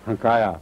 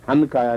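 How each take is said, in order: First: The n merges into a nasalized vowel. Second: A full n consonant is pronounced. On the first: The speaker calls it right. "नून की बजाय नून गुना बन जाता है" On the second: The speaker calls it wrong. "काफ के साथ भी हनकाया नहीं कहते"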